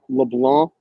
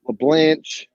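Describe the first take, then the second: First: The name ends in a hard k sound. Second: The name ends in a soft sh sound. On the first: The speaker calls it right. "It's really pronounced LeBlanc" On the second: The speaker calls it wrong. "There's no fucking H at the end of my name"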